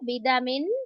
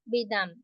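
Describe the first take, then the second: First: The word ends with a vowel plus n. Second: The word ends on a bare consonant.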